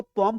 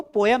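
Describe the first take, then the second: First: पोम as one syllable, "pome"; पोम with no y glide; taught reading of poem. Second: पोयम in two syllables, "po-yam"; mispronounced पोयम, split as po-yam; wrong reading of poem. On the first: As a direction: say पोम rhyming with "home". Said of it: "इसको पोम पढ़ते हैं". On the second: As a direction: say पोयम with a y glide in the middle. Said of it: "इसको पोयम नहीं पढ़ते". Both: Shown as a demonstration.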